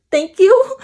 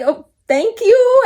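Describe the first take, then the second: First: Higher, louder, nervous little thank-you; nervous reply to a creepy stranger's compliment. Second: Higher, slow, drawn-out nervous thank-you; nervous reply to a creepy stranger's compliment. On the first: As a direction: thank him nervously to get away. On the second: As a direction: stretch it out, nervous and eager to leave. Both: Retold or imitated. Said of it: "I was nervous".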